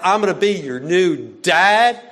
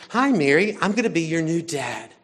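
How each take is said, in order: First: Loud, exaggerated parody rising at the end; "I'm gonna be your new dad" echoed loud and mocking, rising on "dad"; mocking repeat. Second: Said in the usual way. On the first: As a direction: parrot the line back in ridicule. Mimicking the dorm dad's line.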